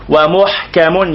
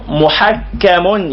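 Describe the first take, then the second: First: ومحكم as wa-muḥkam, no doubling; very slow muḥ-kam in ومحكم, ḥ without vowel; single kaf. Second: محكم as muḥakkam, kaf held double; doubled kaf. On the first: Teacher explaining the other sense, single kaf. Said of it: "يعني آياته". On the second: Teacher explaining the Quran as arbiter, doubled kaf. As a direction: draw out muḥak-kam in محكم slowly. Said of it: "يعني مرجوع إلى حكمه". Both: Shown as a demonstration.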